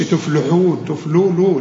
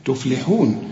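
First: تفلحون slipped into "tuf-lu-hoon"; wrong rounded lam. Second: تفلحون with a thin, clear "li"; clear kasra. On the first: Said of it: "ما تقولش". (تفلحون بضم اللام غلط) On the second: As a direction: say tuf-li-hoon, light lam in تفلحون. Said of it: "مرققة ومكسورة". (تفلحون بلام مرققة مكسورة) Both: Shown as a demonstration.

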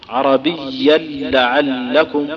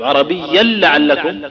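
First: "عربيا لعلكم" بلام مشددة وبطء شديد; أدغم التنوين في لام "لعلكم"; إدغام التنوين في اللام. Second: "عربيا لعلكم" بلام مشددة ببطء; شدد لام "لعلكم" بعد التنوين; إدغام التنوين في اللام. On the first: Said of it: "نطقها". (نطق بطيء مدغم) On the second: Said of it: "نفس النطق". (نطق مدغم واضح) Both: Shown as a demonstration.

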